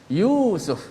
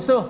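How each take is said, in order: First: The first vowel is held long. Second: The first vowel is kept short. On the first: This is how Arabs say it. "dia akan tekankan suara you tu kerana ada mat dipanjangkan" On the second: This is how Malays say it. "Kalau kita orang Melayu, kita cakap Yusuf ... kita tak ikut dia punya mat tu"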